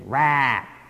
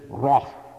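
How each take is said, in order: First: The word is said with an American accent. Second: The word is said with a British accent. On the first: "that's the American pronunciation" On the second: "The English"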